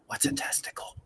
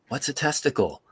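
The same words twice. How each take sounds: First: It is said at a normal, soft volume. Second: It is said somewhat louder.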